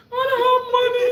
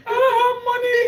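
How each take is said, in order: First: High, loud laughing wail; hammed-up sob, high and loud; mock crying. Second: High, loud wail with a sob; hammed-up crying plea, high and loud; mock crying. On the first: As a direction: wail it like a broke kid. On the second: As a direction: cry it out, half laughing. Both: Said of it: "I said, I cried".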